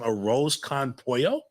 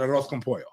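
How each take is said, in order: First: The three words are said separately. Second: The three words run together as one. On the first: The speaker calls it wrong. "No, you don't say that" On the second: The speaker calls it right. "You have to just blend it all together"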